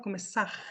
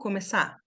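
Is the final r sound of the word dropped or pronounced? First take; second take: pronounced; dropped. First: The final r sound is pronounced. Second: The final r sound is dropped. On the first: "Tem gente que fala começar" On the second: "Esse R aqui, ó, começar. Olha como é que a gente fala"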